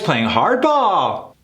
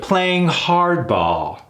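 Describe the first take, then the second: First: It is said with an upbeat, positive tone. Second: It is said with a falling, negative tone. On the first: The tough negotiating is a good thing. The speaker calls it wrong. "It would be weird if I say it positively" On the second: The tough negotiating is a bad thing. The speaker calls it right. "You see how we go down on that?"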